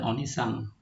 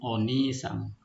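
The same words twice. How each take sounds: First: The second vowel is short. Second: The second vowel is long. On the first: The speaker calls it wrong. "Bukan onisang" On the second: The speaker calls it right. "Jadi panjang bacanya"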